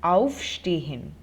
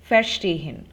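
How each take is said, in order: First: Slow aufstehen, leaning hard on "auf"; stress on the prefix. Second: Verstehen with light "ver", loud stress on STEH; verSTEHen, punching the second syllable; unstressed prefix. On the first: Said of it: "the emphasis is on the prefix". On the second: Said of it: "the intonation is not on the prefix". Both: Shown as a demonstration.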